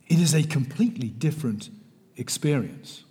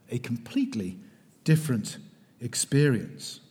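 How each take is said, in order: First: Said in the usual way. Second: Emphatic whispered repeat. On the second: Real, not acted. Lecturer repeats phrase for emphasis.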